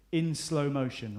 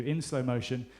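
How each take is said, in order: First: Slow motion. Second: Said in the usual way. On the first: Shown as a demonstration. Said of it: "I'm gonna give you a cue". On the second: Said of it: "This is the cue".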